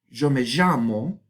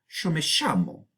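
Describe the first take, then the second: First: The 'y' sound is voiced, without devoicing. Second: The 'y' sound is devoiced, as in Argentina.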